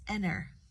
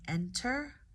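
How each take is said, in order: First: The T sound is dropped entirely. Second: The T sound is clearly pronounced. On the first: "or typically it's" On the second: "You could say"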